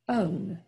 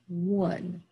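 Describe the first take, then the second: First: The vowel is a long O, like 'own'. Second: It starts with a W sound, like 'won'. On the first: The speaker calls it wrong. "And that's not how we say it" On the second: The speaker calls it right. "We say one"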